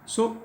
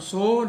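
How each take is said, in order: First: The vowel is cut short. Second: The vowel is held long. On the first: It keeps the verse's syllable count correct. The speaker calls it right. "ह्रस्व में उच्चारण करना है" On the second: It adds one extra syllable beat to the verse. The speaker calls it wrong. "सो नहीं कहना है"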